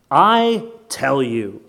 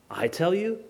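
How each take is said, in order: First: Very slow, weighty declaration; solemn statement of authority; authoritative pronouncement. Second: Soft, quick question rising at the end; quietly puzzled query; incredulous echo. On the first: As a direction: pronounce it with a long, heavy I. Quotes Jesus, then questions it. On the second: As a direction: echo it back doubtfully. Repeats the claim in disbelief. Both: Acted.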